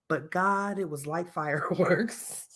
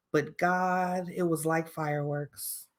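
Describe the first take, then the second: First: Soft, slow line breaking into a laugh; mock dreamy reprise. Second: Soft, slow, dreamy whisper of a line; dreamy acted line. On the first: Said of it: "She was hella flicking that bean". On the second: Shown as a demonstration. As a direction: sigh it out like a lovestruck confession. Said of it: "I'm gonna put my acting voice on".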